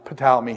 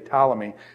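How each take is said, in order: First: The initial P is pronounced before the T. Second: The initial P is silent; it starts with T. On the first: "He pronounces the P" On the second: "where the P goes silent, so I'd say Ptolemy"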